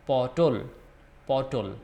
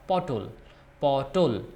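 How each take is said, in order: No difference in how they are said.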